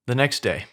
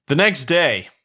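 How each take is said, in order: First: Said in the usual way. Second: Loud, raised storyteller's heading; announced scene change. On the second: A narrator's reading. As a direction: announce a new scene with a flourish. Scene heading, redone plainly after an aside.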